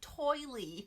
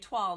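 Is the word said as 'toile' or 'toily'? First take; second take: toily; toile. First: The word ends with an added ee sound. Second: The word ends without an added ee sound. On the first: The speaker calls it wrong. "It's not toily" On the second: The speaker calls it right. "I know how to say toile now"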